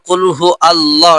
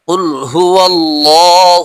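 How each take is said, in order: First: 'Hu' and 'Allah' are said as separate words. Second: 'Hu' and 'Allah' are linked with a glide. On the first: The speaker calls it wrong. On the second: The speaker calls it right.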